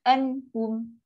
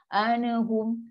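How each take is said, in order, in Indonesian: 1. N menutup suku kata tanpa vokal tambahan. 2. Ada vokal tambahan setelah n. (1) "nun sukun jelas sekali je" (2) "biasa orang baca slow motion anahum"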